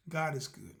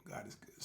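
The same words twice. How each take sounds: First: Said in the usual way. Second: Unvoiced, much softer hush; a quiet grateful whisper. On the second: Real, not acted. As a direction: breathe it like a private prayer. Second take whispered.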